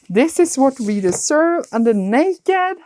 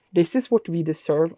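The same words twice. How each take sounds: First: Excited. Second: Said in the usual way. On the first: Real, not acted. Repeats the line louder.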